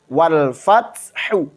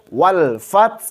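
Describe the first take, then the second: First: The phrase ends on a final vowel. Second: The phrase ends on a breathy h consonant. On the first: The reading continues without stopping. "Contoh wal fathu" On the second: The reader stops at this word. "Kita keluarkan taknya dulu baru haknya"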